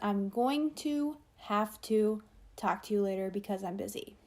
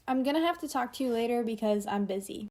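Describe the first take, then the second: First: 'Going to' is said slowly in full. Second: 'Going to' is reduced to 'gonna', said quickly.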